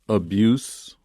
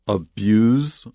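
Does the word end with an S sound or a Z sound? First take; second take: S sound; Z sound. First: The word ends with a hissing S sound. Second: The word ends with a buzzing Z sound. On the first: It is used as a noun. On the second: It is used as a verb.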